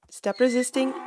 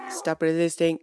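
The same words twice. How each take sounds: First: Higher-pitched playful order; mock command. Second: Lower-pitched firm repeat; mock stern command. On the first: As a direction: order the animal about, pitched up. Ordering the bucking donkey. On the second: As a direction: repeat the order, dropping the pitch. Repeats order to donkey.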